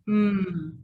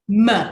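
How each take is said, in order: First: The sound is held alone with no vowel. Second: The sound ends with an added uh vowel. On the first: The speaker calls it right. "It's really important that they become mm" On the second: The speaker calls it wrong. "You must not add an uh at the end of a sound"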